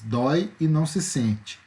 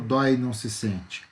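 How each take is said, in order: First: The two vowels are said separately. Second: The two vowels merge into one syllable. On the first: The speaker calls it right. "Eu emiti duas vezes" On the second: The speaker calls it wrong. "Eu não falo dói e não se sente"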